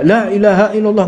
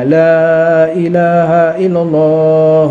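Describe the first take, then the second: First: The first 'l' sound is kept short. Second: The first 'l' sound is drawn out long.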